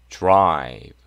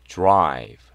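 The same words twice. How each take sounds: The two takes are said the same way.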